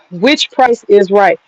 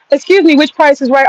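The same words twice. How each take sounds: First: Said in the usual way. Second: Higher, polite excuse me to the creature; mock polite address to a bug. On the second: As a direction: pretend to ask the bug politely.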